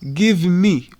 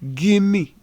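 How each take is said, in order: First: Each word is said fully and separately. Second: The words are reduced and run together. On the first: "we don't say give me" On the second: "we say give me"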